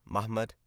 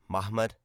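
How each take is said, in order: The two takes are said the same way.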